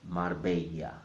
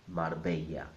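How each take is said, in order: Both takes have the same delivery.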